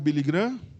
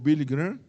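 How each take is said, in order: First: The name is said with Portuguese sounds. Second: The name is said with American English sounds.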